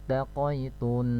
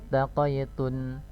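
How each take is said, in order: Both takes have the same delivery.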